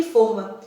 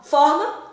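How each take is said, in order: First: Forma with a closed, rounded o: FÔR-ma. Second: Forma with an open o: FÓR-ma. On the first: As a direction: say forma slowly, rounding the first vowel. (forma com o fechado, fôrma) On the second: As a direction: say Forma slowly, opening the first vowel wide. (Forma com o aberto, fórma) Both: Shown as a demonstration. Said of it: "se escrevem da mesma forma".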